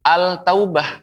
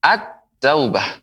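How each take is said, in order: First: "al-taubah" with a clearly sounded l before the t; wrong-way demo, l fully heard in "al-taubah"; unmerged lam. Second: "At-taubah" slowly, l merged into a long doubled t; slow correct model of "At-taubah" with doubled t; assimilated lam. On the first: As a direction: say "al-taubah" higher, pronouncing the l. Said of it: "Sehingga pengucapannya bukan". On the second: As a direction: hold the t in "At-taubah", no l sound. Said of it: "karena dilebur". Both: Shown as a demonstration.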